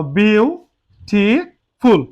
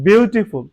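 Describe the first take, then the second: First: beautiful very slow, as "beau, ti, ful"; split into syllables. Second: Said in the usual way. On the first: Shown as a demonstration. Teacher breaking the word up now, beautiful split as "beau, ti, ful". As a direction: say beautiful in three drawn-out, separate syllables. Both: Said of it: "এটাকে আমরা ভাঙাবো এখন".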